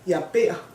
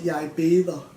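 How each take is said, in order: First: The verb is shortened to one syllable. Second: The verb is said in full, two syllables. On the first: This is the everyday casual form. "you would normally just say ber" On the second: This is the proper formal form. "the proper way to say it"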